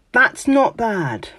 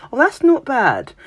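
First: Slow, high, grudging "That's not bad"; grudging praise. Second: High, lilting "Oh, that's not bad"; faint praise. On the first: To a friend's work, grudging mock-British praise. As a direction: draw it out like faint praise. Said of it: "saying things like". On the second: Brit to someone, polite faint-praise tone. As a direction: sound politely unimpressed. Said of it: "us Brits are terrible for that".

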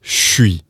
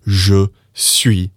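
First: "suis" as "shwi", je melted into sh; sh-wee. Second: "je suis" with a full voiced j. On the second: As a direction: say "je suis" fully, j and e both clear. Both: Shown as a demonstration. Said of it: "being turned into".

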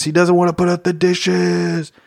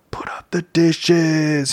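First: Said in the usual way. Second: Whispered, slow and breathy secret. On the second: Real, not acted. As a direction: drop to a slow whisper like a confession. Answering own question about chores.

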